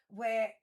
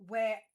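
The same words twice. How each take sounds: The two takes are said the same way.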